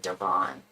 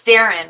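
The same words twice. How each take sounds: First: Daron with the second syllable drawn out as -ON; accent on the end. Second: Said in the usual way. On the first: Retold or imitated. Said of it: "I put a little accent on the end". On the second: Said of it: "It's Darren, right?".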